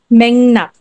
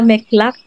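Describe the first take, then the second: First: The middle is said with ng then n. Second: The middle is said with k then l. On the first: The speaker calls it right. "but Mengnak" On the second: The speaker calls it wrong. "hindi siya Meklak"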